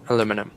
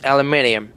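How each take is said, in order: First: It has four syllables, ending in -num. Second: It has five syllables, ending in -nium. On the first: "is the U S" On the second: "in the U K, it's aluminium"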